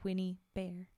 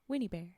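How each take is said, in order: First: The two words are said separately, as two words. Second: The two words run together as one word. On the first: "Instead of" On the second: "Only she say it like one word"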